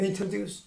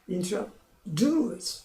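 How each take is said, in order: First: The stress is on the first syllable. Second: The stress is on the last syllable. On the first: The speaker calls it wrong. "한국 사람들 그래요. introduce 초음이 강해요. 안 됩니다" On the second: The speaker calls it right. "삼음절이라 introduce 이렇게만 들립니다"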